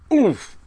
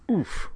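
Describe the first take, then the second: First: Loud, high, sudden "oof"; perplexed oof. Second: High, short puff of "oof"; burdened oof. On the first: Girl imitating professor finding his mistake, perplexed oof. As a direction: exclaim it high and short, as if caught out. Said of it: "with this perplexed look on his face". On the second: Girl with someone jumping on her back, oof. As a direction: let it out as if weight lands on you. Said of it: "with such a burden so suddenly imposed". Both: A narrator's reading.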